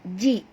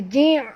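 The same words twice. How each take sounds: First: It has a light, simple glottal catch. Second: It has a strained, squeezed throat consonant. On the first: The speaker calls it right. "Ji ni hamzah" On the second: The speaker calls it wrong. "Jangan tukar kepada ain"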